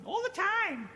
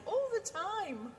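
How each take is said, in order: First: High squawked all the time; [name]'s catchphrase. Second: High, slow catchphrase; mimicking [name]. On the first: Retold or imitated. Partner answering with his own catchphrase, high and squawked. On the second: Shown as a demonstration. Host showing the catchphrase to listeners, high and drawn out. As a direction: draw it out high and teasing. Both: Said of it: "what I mean when I say".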